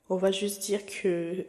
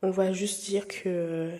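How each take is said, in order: Both takes have the same delivery.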